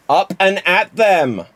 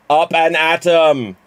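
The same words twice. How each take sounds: First: Up and at them, stretched slowly, higher and punchy; lightly voiced rally call; Simpsons catchphrase. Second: Up and at 'em, clipped to em, slow and louder; the cartoon way, em not them; lightly voiced cartoon rally; Simpsons catchphrase. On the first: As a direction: cheer the barman on like a cartoon boss. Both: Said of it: "do it as Jimmy Mac".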